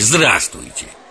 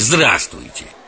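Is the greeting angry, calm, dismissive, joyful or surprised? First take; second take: dismissive; dismissive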